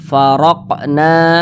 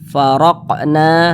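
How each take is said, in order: No difference in how they are said.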